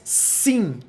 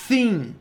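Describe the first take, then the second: First: It starts with a plain hissing s sound. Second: It starts with a lisped th sound. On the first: "Esse som de S" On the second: "Se eu tivesse a língua presa e falasse sim, provavelmente eu diria thin"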